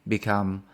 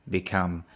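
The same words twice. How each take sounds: Both takes have the same delivery.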